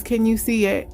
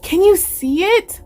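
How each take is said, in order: First: Said in the usual way. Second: High, eager question with a lift; excited voice. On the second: Real, not acted. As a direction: ask it pitched up, bursting with delight. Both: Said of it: "with my exciting voice".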